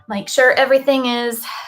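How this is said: It is spoken in a Southern accent.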